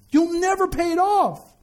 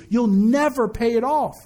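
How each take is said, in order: First: "never pay it off" pitched high and drawn out; high, ringing emphasis on "never pay it off"; emphatic repeat. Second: Said in the usual way. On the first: Real, not acted. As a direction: preach it high and slow, stretching "never" and "off". Repeats the warning at higher pitch.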